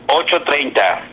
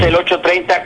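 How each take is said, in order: First: It is said slowly and deliberately. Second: It is said at a normal, quick pace.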